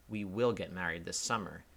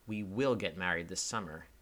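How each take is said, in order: First: The sentence sounds confrontational and combative. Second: The sentence sounds settled, like a decision reached. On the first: The listener is being dragged into a couple's argument. "it sounds confrontational" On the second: The couple has just settled an argument about the date. "it sounds like they just had an argument beforehand about when to get married and finally decided on the summer"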